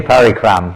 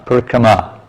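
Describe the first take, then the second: First: The word ends on the consonant m. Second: The word ends with a final a vowel. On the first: It means very heavy work. The speaker calls it wrong. "Don't say parikram" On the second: It means walking around. The speaker calls it right. "It's parikrama"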